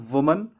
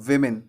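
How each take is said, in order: First: वुमन as "WUM-un"; short u opening वुमन; singular pronunciation. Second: विमेन as "WIM-in"; short i opening विमेन; plural pronunciation. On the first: Teacher gives the singular form, वुमन as "wuman". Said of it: "singular वाला को बोलना है". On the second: Teacher gives the plural form, विमेन as "wimin". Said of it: "plural वाला को बोलना है". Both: Shown as a demonstration.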